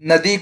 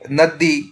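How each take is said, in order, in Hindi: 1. बीच का व्यंजन छोटा और एकल है। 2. बीच का व्यंजन लंबा और दोहरा है।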